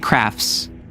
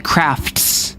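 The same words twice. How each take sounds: First: The T sound is dropped. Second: The T sound is clearly pronounced. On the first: "I don't pronounce T's at the end of words" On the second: "I don't say crafts"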